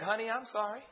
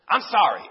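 First: Imitating a soft, heartfelt apology; gently voiced, meant apology to a spouse; sincere apology. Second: Imitating a grudging child's apology; mock insincere apology, pushed out a bit loud; sorry with attitude. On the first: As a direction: apologize softly as if you mean it. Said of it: "you know she meant it?". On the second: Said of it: "they kinda say it with an attitude".

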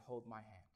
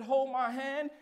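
First: Hushed, pleading; quiet whispered prayer; soft plea. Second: Raised preaching cry; preached plea. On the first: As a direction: ask it quietly, almost breaking. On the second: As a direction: hold my hand cried higher and louder. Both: Retold or imitated. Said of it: "I said".

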